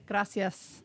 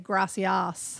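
First: It is said with a Spanish accent and rolled r. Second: It is said with an Australian accent, unrolled r. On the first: The speaker calls it right. "instead of saying gracias" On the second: The speaker calls it wrong. "the Australian accent is too strong on the word gracias. There's no roll to it"

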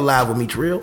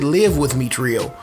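First: 'Live' rhymes with 'five', a long vowel. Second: 'Live' rhymes with 'give', a short vowel. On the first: The show is broadcast live. The speaker calls it right. "It's still live with Meech Real" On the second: Someone would reside in the host's home. The speaker calls it wrong. "or pronounce it live with Meech Real. No, don't do that"

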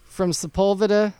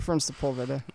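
First: The voice rises at the end like a question. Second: The voice falls at the end like a statement. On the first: It sounds like a question. The speaker calls it wrong. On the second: It sounds like a plain statement. The speaker calls it right.

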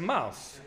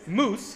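First: The vowel is an 'ow' glide. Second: The vowel is a long 'oo' sound. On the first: This is the pronunciation after the vowel shift. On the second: This is the Scottish and original pronunciation.

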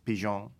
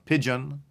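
First: It is said in a French accent. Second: It is said in a plain English accent.

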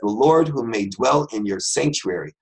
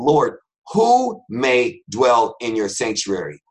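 First: It is said at normal speed. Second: It is said slowly and deliberately.

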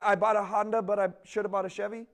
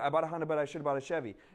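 First: The phrase is said at a normal pace. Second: The phrase is said quickly.

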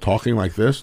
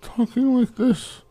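First: The voice sounds normal and healthy. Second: The voice sounds strained and weak.

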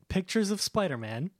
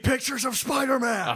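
First: It is said at a normal, calm volume. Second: It is shouted very loudly and angrily.

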